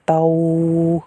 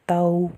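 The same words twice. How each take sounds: First: The syllable is said with force, not softly. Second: The syllable is said softly and gently. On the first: The speaker calls it wrong. "गलत" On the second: The speaker calls it right. "ताऊ नरमी के साथ अदा करना है"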